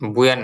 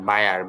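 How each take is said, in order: First: The first syllable has an oo vowel. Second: The first syllable has an eye vowel. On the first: The speaker calls it wrong. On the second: The speaker calls it right.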